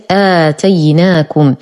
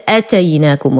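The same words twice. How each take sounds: First: آتيناكم with a long opening "aa"; long vowel. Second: أتيناكم with a short first "a"; mispronunciation demo. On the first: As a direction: draw out the first vowel of آتيناكم. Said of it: "قبل الألف أنطقها آ". (آتيناكم بمد البدل) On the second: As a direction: clip the opening hamza of أتيناكم without lengthening. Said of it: "وهذا خطأ". (أتيناكم دون مد الهمزة خطأً) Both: Shown as a demonstration.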